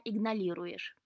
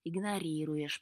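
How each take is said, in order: First: "игнорируешь" with L for the first R; mispronounced word. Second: "Игнорируешь" with both R sounds clear; correct pronunciation. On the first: Cat complaining to Ivan, mispronouncing "игнорируешь" as "игналируешь". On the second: Ivan correcting the cat, "Игнорируешь" with a proper R. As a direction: correct it calmly to "Игнорируешь", R not L. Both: A narrator's reading. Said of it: "поправил Иван кота".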